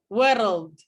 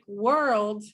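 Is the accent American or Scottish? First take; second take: Scottish; American. First: The r is trilled, like an extra syllable. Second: The r is a smooth American r. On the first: "in Scottish English" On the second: "in standard American English"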